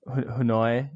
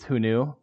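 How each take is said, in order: First: The name ends with an 'oy' sound. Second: The name ends with an 'oo' sound. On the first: The speaker calls it wrong. "who I pronounced, you know, Hunoi" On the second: The speaker calls it right. "but I guess it's who knew"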